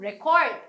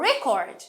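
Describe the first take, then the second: First: The stress is on the second syllable. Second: The stress is on the first syllable. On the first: It is used as a verb. "ভার্বে পরের অংশে stress হয়" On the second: It is used as a noun. "নাউনে আমাদের first অংশে stress হয়"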